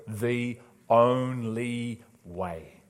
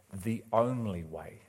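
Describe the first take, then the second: First: "The only way" very slow, each word set apart; big bold emphasis. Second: Said in the usual way. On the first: Shown as a demonstration. Preacher dictating to note-takers, "The only way" slow and emphatic. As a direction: spell out "only" in big, drawn-out syllables. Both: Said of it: "write this down in big bold letters".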